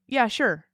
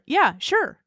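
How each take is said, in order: First: It is said in a flat, dismissive tone. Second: It is said in a lively, excited tone. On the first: The listener is being brushed off. "am I brushing you off" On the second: The speaker is genuinely keen on the idea. "Am I excited about that thing?"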